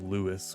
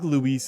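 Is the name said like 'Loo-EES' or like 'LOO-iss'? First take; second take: LOO-iss; Loo-EES. First: The name is said as LOO-iss. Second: The name is said as loo-EES. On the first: The speaker calls it wrong. "on stream I said Lewis, which I cringed at" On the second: The speaker calls it right. "I think Luis is the correct way to say it"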